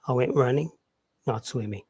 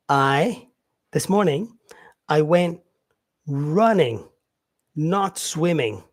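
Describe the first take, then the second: First: Said in the usual way. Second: Slow with clear pauses before the contrast; pauses shown. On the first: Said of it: "this is where I use my comma". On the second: Shown as a demonstration. Teacher showing students where the commas fall, with pauses. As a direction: pause at each comma, then a slow not swimming. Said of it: "this pause that I have".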